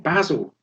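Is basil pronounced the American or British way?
British. The word is said in a non-American way.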